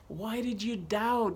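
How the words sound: It is said in a warm, encouraging tone. The listener almost succeeded and could have done it. The speaker calls it right. "I think he was just trying to encourage Peter"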